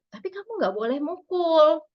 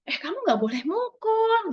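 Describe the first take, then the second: First: Mother setting a limit calmly, after validating; firm but gentle, the right order; calm parent limit. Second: Higher, sharp mother snapping a rule straight away; sharp scolding. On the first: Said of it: "Ngomongnya tuh urutannya seperti itu". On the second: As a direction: scold first, the wrong way. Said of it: "kalau dibalik". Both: Shown as a demonstration.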